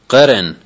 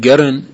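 First: The word begins with a deep q sound. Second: The word begins with a hard g sound.

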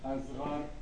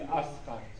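First: The middle consonant is a z sound. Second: The middle consonant is an s sound. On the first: "ساد گاهی وقتا تبدیل به زه میشه" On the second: "یعنی"

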